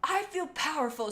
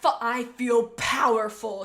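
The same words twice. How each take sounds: First: Said in the usual way. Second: Loud, slow, savoring the power; powerful boast. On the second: Acted. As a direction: Chaser boasts in a loud, slow voice after returning as a ghost. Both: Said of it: "said Chaser".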